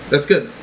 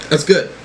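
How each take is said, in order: Both takes have the same delivery.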